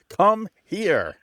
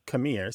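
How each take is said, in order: First: It is said slowly with both words enunciated. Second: It is said quickly as one reduced word. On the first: "that is the lento form" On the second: "is known as an allegro form"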